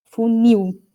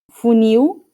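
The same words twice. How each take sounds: First: Funil with a clear falling stress on il; stress on final syllable. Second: Funil said slowly, the final il drawn out and rising; stress on final syllable. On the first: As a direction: land firmly on the il of funil and drop. (funil com acento forte e descendente no il) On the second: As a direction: stretch the il of funil slowly, pitch going up. (ênfase lenta na sílaba final il de funil) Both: Shown as a demonstration. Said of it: "A sílaba mais forte é o il".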